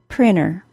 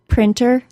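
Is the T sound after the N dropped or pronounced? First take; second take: dropped; pronounced. First: The T sound after the N is dropped. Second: The T sound after the N is pronounced. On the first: "and without" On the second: "with a T sound"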